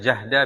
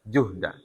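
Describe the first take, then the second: First: The first vowel is an open a sound. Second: The first vowel is a rounded u sound. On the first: It means hardship or strain. "kalau dibaca dengan ja" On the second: It means capacity or ability. "Kalau dibaca dengan ju"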